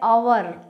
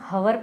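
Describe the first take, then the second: First: The word begins with a vowel, no h. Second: The word begins with an audible h sound. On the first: The speaker calls it right. "एच हमेशा silent रहता है इसमें" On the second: The speaker calls it wrong. "तो ये गलत है बेटा।"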